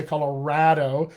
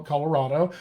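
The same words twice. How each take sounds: First: "Colorado" with the flat a of "rad"; Colorado with short a. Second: "Colorado" with an open "ah" in the third syllable; outsider's "Colorado", RAH in the middle; Colorado with broad a. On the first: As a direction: say "Colorado" so the third syllable rhymes with "bad". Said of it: "I say Colorado instead of". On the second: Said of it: "instead of Col-, Colorado". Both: Shown as a demonstration.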